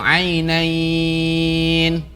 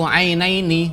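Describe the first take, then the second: First: The last syllable is held long with no vowel after. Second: The word ends with a short added vowel. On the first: The reciter stops at this word. "Jadi kalau diwakafkan bacanya jadi panjang" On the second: The reciter continues to the next words. "tidak boleh dibaca apa uh, panjang"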